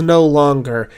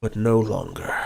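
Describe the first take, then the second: First: Said in the usual way. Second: Dragon's resolve. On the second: Acted. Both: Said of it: "as he says "no longer".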